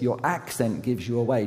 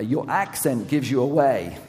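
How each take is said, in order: First: Said in the usual way. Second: Put-on louder, punched "accent gives you away"; "accent gives you away" called out as an accusation; emphatic accusation. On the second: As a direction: hit "accent" hard and carry the force through "away". Quote repeated with emphasis.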